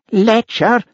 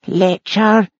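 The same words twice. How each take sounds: First: Very high accusing howl; shrill howled accusation; outraged howl. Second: High, plaintive echoing wail; wailed, wounded accusation. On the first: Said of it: "howled Nessie". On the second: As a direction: echo the insult as a high lament. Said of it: "but in a plaintive wail". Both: Acted.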